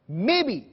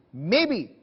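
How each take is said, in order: Both takes have the same delivery.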